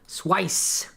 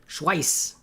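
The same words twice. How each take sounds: First: The word ends in a hissing s sound. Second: The word ends in a hissing s sound.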